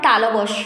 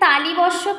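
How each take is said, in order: First: No extra vowel follows 'tal'. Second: An extra 'i' vowel follows 'tal'. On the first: The speaker calls it right. "কথাটা হবে তালবস্য" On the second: The speaker calls it wrong. "আমরা অনেকে তালিবস্য বলি না, তালিবস্য কিন্তু না"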